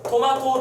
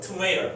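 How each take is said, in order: First: It is said as Korean to-ma-to. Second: It is said as English tuh-may-ruh. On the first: This is the customary Korean form. "우리는 토마토라고 하면서" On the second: This is close to the original pronunciation. "트메이러 정도 되지 않냐?"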